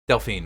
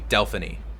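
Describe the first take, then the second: First: The name ends without a final vowel syllable. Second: The name ends with an extra 'ee' syllable. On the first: This is the modern English form of the name. "in its more modern English version" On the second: This is the old Greek form of the name. "in its old Greek version, it'd be Delphiny with the e at the end"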